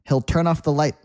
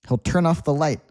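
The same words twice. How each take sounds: No difference in how they are said.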